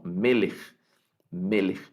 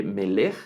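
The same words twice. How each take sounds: First: "melech" with the first syllable MEL stressed and the end light, MElech. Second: "melech" said slowly with the weight on the last syllable, meLECH; drawn-out "melech" leaning on its second syllable; wrong stress on melech. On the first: Teacher to class, showing the correct reading: MElech stressed up front. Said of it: "el acento en la primera sílaba". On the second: Teacher to class, showing the wrong reading: slow melech stressed on the end. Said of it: "no se lee melech". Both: Shown as a demonstration.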